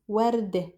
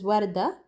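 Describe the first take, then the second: First: "ورد" as "wardeh", ending in eh; Lebanese pronunciation. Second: "وردة" as "warda", ending in ah; Fusha pronunciation. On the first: Teacher showing the ending change, Lebanese pronunciation. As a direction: close the final vowel of "ورد" to eh. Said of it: "becomes an ih sound". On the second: Teacher citing the standard word for learners, Fusha pronunciation. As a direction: open final a on "وردة". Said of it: "in Fusha". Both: Shown as a demonstration.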